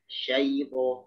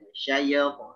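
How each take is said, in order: First: The ya sound glides smoothly without any bounce. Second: The ya sound is bounced with a clipped echo. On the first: The speaker calls it right. "Jadi yang benar gimana?" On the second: The speaker calls it wrong. "Jangan syayy, syayy, syayyapo, syayyapo. Nah, itu itu keliru"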